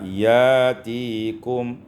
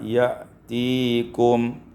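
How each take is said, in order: First: The first vowel is lengthened with no glottal stop. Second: A glottal stop follows the first vowel.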